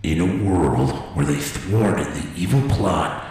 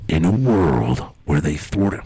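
First: Movie trailer voice. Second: Low, slow trailer narrator; movie trailer voice. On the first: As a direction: intone it like an epic film trailer. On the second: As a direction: announce it like a film trailer. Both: Pretend. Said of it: "movie trailers always start off like that".

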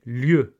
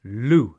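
First: "lieu" said the French way, like lyeu; "lieu" en prononciation française; French pronunciation. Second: "Lieu" said the English way, like loo; anglicised "Lieu", rhymes with too; "Lieu" à l'anglaise, comme loo; English pronunciation. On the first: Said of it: "nous ne le prononçons pas comme en français". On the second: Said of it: "le mot est bien anglicisé". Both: Shown as a demonstration.

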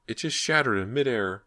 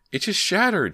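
First: Dazed repeating. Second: Very high, loud shaken outburst; dazed cry. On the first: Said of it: "Ginny repeated". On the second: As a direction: blurt it out in shock. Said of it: "still dazed". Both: A narrator's reading.

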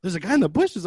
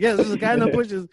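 First: Higher, louder questioning repeat with a rise; incredulous echo question, rising at the end. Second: High, loud insistent answer; acted emphatic yes, falling at the end; exasperated confirmation. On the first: Retold or imitated. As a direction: imitate a clerk checking what she heard. Front desk lady repeats it back. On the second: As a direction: confirm it impatiently, imitating a panicked caller. Caller confirms to front desk.

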